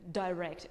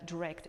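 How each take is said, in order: First: "direct" opening with "die"; long I in "direct"; "direct" as "die-rect"; British "direct". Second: "direct" with a short first vowel; "direct" as "duh-rect"; American "direct". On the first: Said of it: "direct in British". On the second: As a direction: reduce the I in "direct". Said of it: "direct in American". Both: Shown as a demonstration.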